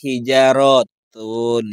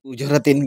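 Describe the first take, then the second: First: The word begins with an h sound. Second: The word begins with a vowel, no h. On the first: The speaker calls it right. "bukan u tapi h di depan itu ya" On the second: The speaker calls it wrong. "Anda membaca ujaratin"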